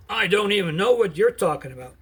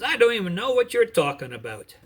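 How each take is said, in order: First: Louder, higher and angry, leaning on know; angry sworn denial; angry oath. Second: Louder and higher, flat-out denial; loud, scared denial. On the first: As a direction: swear it angrily to the crowd. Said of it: "And with an angry oath". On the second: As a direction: shout the denial to shake her off. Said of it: "So he denied it loudly". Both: Acted.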